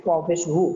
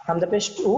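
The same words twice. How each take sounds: First: উ of ওয়াও পেশ উ formed between two rounded lips; ওয়াও পেশ উ: উ made at the lips, lips rounded. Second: উ of হামজা পেশ উ sounded from the start of the throat, lips not leading; হামজা পেশ উ: উ released from the throat, not the lips. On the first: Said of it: "দুই ঠোঁট গোল হয়ে বের হয়ে যাবে". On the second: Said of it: "হলকের শুরু থেকে উচ্চারণ হবে". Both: Shown as a demonstration.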